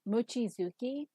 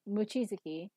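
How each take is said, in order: First: The even syllables are emphasized. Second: The even syllables are not emphasized. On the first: The speaker calls it wrong. "where they emphasize the even syllables" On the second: The speaker calls it right. "closer to how it should be"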